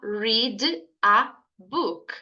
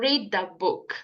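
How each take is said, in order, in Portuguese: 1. Read e a são ditas como palavras separadas. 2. O d de read emenda direto em a. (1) "do que você falar read a book" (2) "A letra D da palavra read, né? Junto com a letra A"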